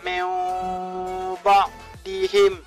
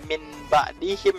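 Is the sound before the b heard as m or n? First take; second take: m; n. First: The n is changed into an m sound. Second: The n is pronounced as a clear n. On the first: The speaker calls it right. "dibalikkan menjadi jadi mim" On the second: The speaker calls it wrong. "Jadi nggak nggak"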